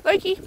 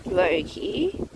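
First: Short, high-pitched call of "Loki"; quick call. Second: "Loki" low and softer, stretched to a rise; drawn-out call. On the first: Calling a dog for a treat. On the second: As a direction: coax "Loki" slowly, lifting the end. Calling the same dog once more. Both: Real, not acted.

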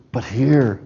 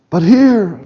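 First: Quieter take. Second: Said in the usual way. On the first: Shown as a demonstration. Contrasting not here with here.

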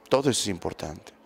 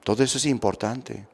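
Both takes have the same delivery.

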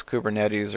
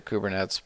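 First: "Kubernetes" said koo-ber-NET-eez; Kubernetes ending in -eez. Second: "Kubernetes" said koo-ber-NETS; Kubernetes ending in -nets. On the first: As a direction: sound out the last syllable of "Kubernetes" as -eez. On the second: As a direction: cut "Kubernetes" to three syllables, ending like "nets". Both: Shown as a demonstration. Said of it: "I don't know if it's".

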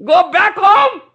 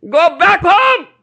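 First: Much higher and louder, ringing command; emphatic quote. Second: High, loud, slowed call to go home; quoting guru loudly. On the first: Preacher repeating his guru's emphatic command to listeners, loud and high. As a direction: thunder the guru's words home. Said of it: "emphatically says". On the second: Preacher quoting his guru's call to devotees, loud and high. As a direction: proclaim it like the guru's summons. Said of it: "My Guru Maharaj says". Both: Retold or imitated.

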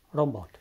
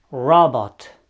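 First: Said in the usual way. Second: Robot said the English way, "roh-bot" with an English R, louder; robot with a clear English R. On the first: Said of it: "radio sau robot". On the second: Shown as a demonstration. Teacher modelling English robot for learners, clear English R. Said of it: "La începutul cuvintelor".

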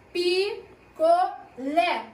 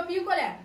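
First: "Picolé" very slowly as Pi, co, LÉ, each part separate; syllable by syllable. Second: Said in the usual way. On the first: Shown as a demonstration. Teacher asks pupils for the strongest syllable, "Picolé" slowly broken up. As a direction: draw out "Picolé" in three beats, landing firmly on LÉ. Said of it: "Qual é a mais forte?". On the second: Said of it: "vão falar a palavra picolé".

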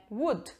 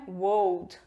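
First: "would" said short, as "wud", no l; the right "would", short and clean; correct pronunciation. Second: "would" said wrongly like "wold", with an o-glide; the mistaken "would", as "wold"; wrong pronunciation. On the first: Teacher giving students the correct version. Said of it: "Não é would, é would". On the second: Teacher showing students the wrong way, slowly. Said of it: "Não é would". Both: Shown as a demonstration.

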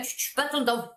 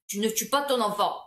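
First: Said in the usual way. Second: "tu ne tues pas ton enfant" with the full "ne", "pas" pressed; firm restatement. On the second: Shown as a demonstration. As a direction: correct yourself and lay it down firmly. (reprise ferme, en appuyant sur « ne » et « pas »)

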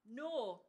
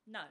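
First: NO in a long northeastern vowel; northern accent. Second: NO with a southern English vowel; southern accent. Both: Acted. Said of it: "that shedding tongue".

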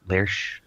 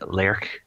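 First: "Lerch" ending in sh, like lersh; soft SH ending. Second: "Lerch" ending in a hard K, like lerk. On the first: Host unsure of a studio's name, soft SH ending. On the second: Host trying out a studio's name, hard K ending. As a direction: say "Lerch" with a final k sound. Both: Shown as a demonstration. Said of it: "It was Lerch, get right".

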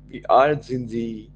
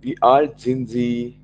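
No difference in how they are said.

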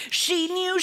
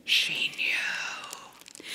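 First: Said in the usual way. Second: Drawn-out, hushed storyteller whisper; dread-filled whisper. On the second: A narrator's reading. Child's dread after father's cry.

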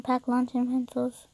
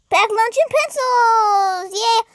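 First: Said in the usual way. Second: Higher, drawn-out excited call; excited cheer. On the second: Real, not acted. Player picking what baby takes to school, excited cheer. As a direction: sing out the choice slowly with excitement. Cheers the option just read out.

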